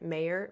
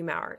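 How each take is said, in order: First: The name is said the British way, like mayor. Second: The name is said in a non-British way. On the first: The speaker calls it right. "they pronounce it a British way, so I think he actually pronounces it Mayor" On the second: The speaker calls it wrong. "I always get it wrong"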